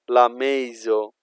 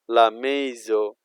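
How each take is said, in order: Both takes have the same delivery.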